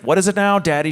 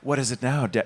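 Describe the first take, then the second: First: The line sounds plain, not sexy. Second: The line sounds sultry and sexy. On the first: The speaker calls it right. "there it is, there it is!" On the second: The speaker calls it wrong. "No, still set"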